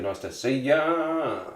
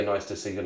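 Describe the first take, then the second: First: Slow, stretching YA out long; drawn-out greeting. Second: Said in the usual way. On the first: Real, not acted. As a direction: playfully lengthen the final YA.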